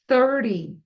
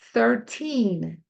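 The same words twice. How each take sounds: First: Thirty with a short, quick ty ending. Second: Put-on Thirteen with a long stressed teen and falling tune; clear teen. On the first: Teacher contrasts thirty with thirteen for learners. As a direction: clip the ty in Thirty. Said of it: "Vamos fazer o trinta". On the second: Teacher contrasts thirteen with thirty for learners. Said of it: "Olha só o treze". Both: Shown as a demonstration.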